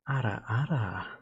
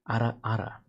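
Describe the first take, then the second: First: It is said in a teasing, suggestive way. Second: It is said in a plain, flat way.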